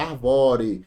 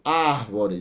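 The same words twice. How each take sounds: First: ARVORE slowly, stressed on an open VÓ. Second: ÁRVORE stressed on its first syllable, long ÁR. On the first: Teacher showing the word without its accent, stressed VÓ in "arvore". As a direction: move the weight to the middle of "arvore". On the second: Teacher giving the accented example, stress on ÁR in "árvore". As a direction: put the weight on ÁR in "árvore". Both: Shown as a demonstration. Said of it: "Se você tirar o acento de árvore".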